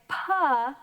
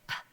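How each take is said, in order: First: The consonant ends with an added uh vowel. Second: The consonant is a bare push of air. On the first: The speaker calls it wrong. "we do not say pa" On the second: The speaker calls it right. "we say p, because it's just a push of air"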